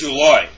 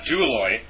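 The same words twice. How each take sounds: First: The accented syllable is stressed strongly. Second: The accented syllable is only weakly stressed. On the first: The speaker calls it right. "we should really stress them" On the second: The speaker calls it wrong. "It's not Douloi"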